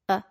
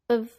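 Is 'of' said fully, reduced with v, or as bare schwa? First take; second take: bare schwa; reduced with v. First: The word is only a schwa sound. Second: The word has a schwa and keeps the v. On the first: "or a" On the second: "becomes of"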